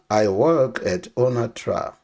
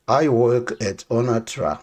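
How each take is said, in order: Both takes have the same delivery.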